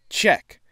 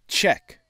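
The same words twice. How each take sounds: Both takes have the same delivery.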